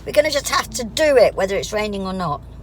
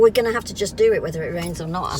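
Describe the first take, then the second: First: It is said emphatically, with meaning. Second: It is said casually, without special emphasis.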